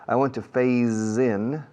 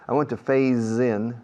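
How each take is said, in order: No difference in how they are said.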